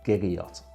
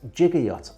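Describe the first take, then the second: First: The word begins with a hard G sound. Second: The word begins with a soft J sound. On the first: The speaker calls it right. "the correct pronunciation is indeed" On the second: The speaker calls it wrong. "I've been pronouncing the word giga yacht as"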